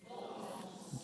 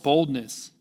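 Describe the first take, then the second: First: Whispered. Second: Said in the usual way. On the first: Shown as a demonstration. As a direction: whisper the word boldness with no voice. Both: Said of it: "speak, say it out loud".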